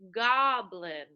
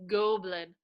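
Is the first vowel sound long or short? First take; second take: short; long. First: The first vowel is a short 'ah' sound. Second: The first vowel is a long 'oh' sound. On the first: The speaker calls it right. "change that O into an ah" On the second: The speaker calls it wrong. "They kept saying goblin"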